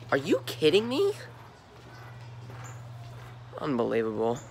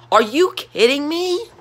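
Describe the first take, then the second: First: Deflated. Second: Disbelief. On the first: Deflated repeat of the rant line. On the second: Fan ranting at his team. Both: Real, not acted.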